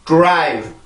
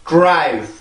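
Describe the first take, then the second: The two takes are said the same way.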